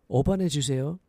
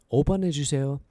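The two takes are said the same way.

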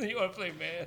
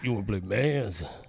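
First: It is said in a normal voice. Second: It is said in a deeper voice.

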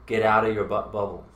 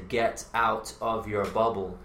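First: The words run together in connected speech. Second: The words are said slowly and separately. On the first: "That is connected speech" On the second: "He tried to slow it down"

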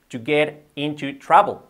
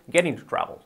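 First: It is said at normal speed. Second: It is said quickly, run together.

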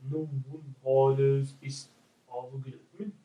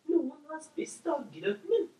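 First: It is said in a deep voice. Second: It is said in a lighter, higher voice.

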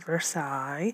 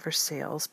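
First: The name is pronounced the French way. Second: The name is pronounced the American way. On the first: This is how the palace in France is said. "we don't say Versailles" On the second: This is how the local town is said. "We say Versailles because we're from America"

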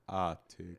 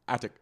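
First: The word is said very slowly. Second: The word is said quickly.

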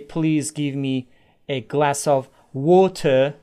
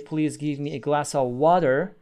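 First: It is spoken with a British accent. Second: It is spoken with an American accent. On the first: "You used British English or American English" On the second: "You used British English or American English"

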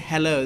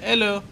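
First: The word starts with an h sound. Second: The word starts without an h sound. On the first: "They don't say hello" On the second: "They say hello. ... In French, you don't pronounce H"

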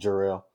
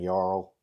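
First: The name starts with a J sound. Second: The name starts without a J sound. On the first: The name is pronounced properly. The speaker calls it right. "instead of Jarl" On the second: The name is mispronounced. The speaker calls it wrong. "saying Jarl instead of"

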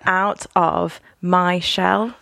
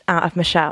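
First: It is said slowly and clearly. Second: It is said fast and run together.

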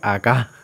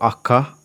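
First: The word sounds like native Spanish. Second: The word sounds like an American accent. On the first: The speaker calls it right. "en vez de decir acá" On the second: The speaker calls it wrong. "Es como si yo fuera americano y estuviera tratando de decir acá en español"

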